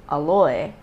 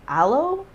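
First: 'aloe' said uh-LOY; family pronunciation. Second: Said in the usual way. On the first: Shown as a demonstration. Explaining how siblings grew up saying it, 'aloe' as uh-LOY. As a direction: end 'aloe' like boy, stressed on the second syllable. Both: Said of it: "grew up saying aloe as aloe".

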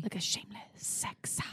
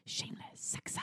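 First: Breathy whispered jingle line. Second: Hushed whisper of the slogan; whispered jingle. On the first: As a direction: whisper it like a secret. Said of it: "Why do you think the jingle would be?". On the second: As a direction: breathe it out in a whisper. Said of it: "what do you wanna say on it?". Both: Shown as a demonstration.

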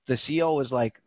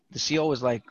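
Both takes have the same delivery.

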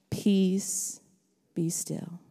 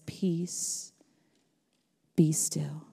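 First: Softer, calm and still; calm command. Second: Soft hushed whisper. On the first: Pastor voicing Jesus to the sea, soft calm command. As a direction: speak it like calming a storm. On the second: Pastor whispering Jesus' words to the congregation. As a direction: breathe it out gently. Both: Acted.

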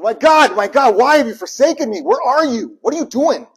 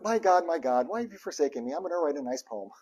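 First: Loud, high, raw anguish to God; desperate cry. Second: Calm recital. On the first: Preacher showing the real desperate cry, loud anguish. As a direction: shout it like you mean it. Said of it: "It was". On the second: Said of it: "It wasn't ... It was". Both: Shown as a demonstration.

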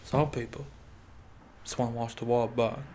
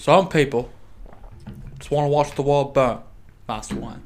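First: Quiet attempt at a British accent; soft British film-butler imitation; Michael Caine. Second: Louder attempt at a British accent; Michael Caine. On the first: Quoting a Batman film to the co-host, soft British accent. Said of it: "try to do a British accent". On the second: Retrying the quote out loud, louder British accent. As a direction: call it out in a British butler voice. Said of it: "I can't do the accent unless I do it quietly".

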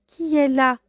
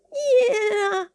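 First: A touch higher and louder, rough wolf voice; gruff big voice. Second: Put-on high, frail old woman's voice; weak trembling grandmother. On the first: Acted. Wolf in grandmother's bed answers the knock, gruff. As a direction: bark it out as the wolf. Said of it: "la grosse voix qui répondit". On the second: Grandmother in bed asks who knocks, weak and trembling. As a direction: quaver it like a frail old lady. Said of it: "d'une voix faible et tremblante".

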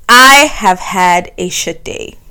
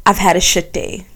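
First: I have had a shit day, each word stressed; emphatic repeat. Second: Said in the usual way. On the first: Real, not acted. Admitting a bad day to listeners, pressing each word.

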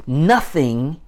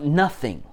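First: Nothing said louder, lifted with a rising tune; stress on nothing. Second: Said in the usual way. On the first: Shown as a demonstration. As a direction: punch the word nothing. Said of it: "In other words". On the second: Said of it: "the emphasis on, on in the sentence is on the idea of".

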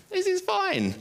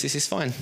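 First: Very high, squeaky fake reassurance; mock-fine. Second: Said in the usual way. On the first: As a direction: insist it in a comically strained high pitch. Pretending to be fine in grief.

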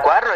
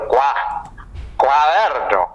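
First: Said in the usual way. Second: "cuaderno" broken after "Cua", then restarted with a swoop; halting, exaggerated "cuaderno"; silly pronunciation. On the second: Shown as a demonstration. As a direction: stall on "Cua-", then swing through "cuaderno". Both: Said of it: "Al cuaderno le digo".

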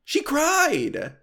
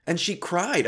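First: Pitched way up in disbelief; incredulous high exclaim. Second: Said in the usual way. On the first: Real, not acted. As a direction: squeal it out, amazed at yourself. Retelling making therapist cry.

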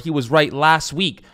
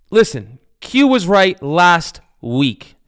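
First: Said in the usual way. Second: Slow, louder, each word drawn out; slow dramatic admission. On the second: Real, not acted. Host conceding to absent co-host, slow and emphatic. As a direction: lay it down like a verdict he hates giving.

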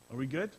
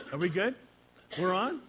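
First: Said in the usual way. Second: Higher, louder, calling out are we good; shouting to the crew whether they're live; louder check. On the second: Real, not acted. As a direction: call across the room to the tech. Checking if livestream is on.

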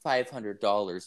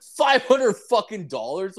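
First: Said in the usual way. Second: Much higher, outraged echo of the price; incredulous outburst. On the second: Retold or imitated. Customer balks at the girl's price, high incredulous outburst. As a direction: pitch leaping up in mock disbelief.

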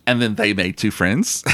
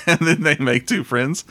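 First: Said in the usual way. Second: Said again through a laugh, a bit higher; laughing repeat. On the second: Shown as a demonstration.

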